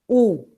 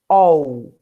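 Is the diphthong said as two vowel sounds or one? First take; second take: one; two. First: The two vowels merge into a single 'u' sound. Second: The two vowels are sounded separately, like 'ol'. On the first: The speaker calls it right. "Será pronunciado apenas como u" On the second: The speaker calls it wrong. "Correto? Não, errado"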